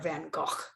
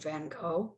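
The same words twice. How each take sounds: First: The name is said in a Dutch way. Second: The name is said in an English way.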